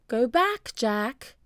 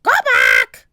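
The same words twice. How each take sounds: First: Gentle human-like parrot; parrot sounding human. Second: Loud, harsh bird squawk; loud parrot squawk. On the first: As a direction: say it like a person, not a bird. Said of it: "She sounded like a person". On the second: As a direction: screech it like a parrot. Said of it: "squawked Polly". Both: A narrator's reading.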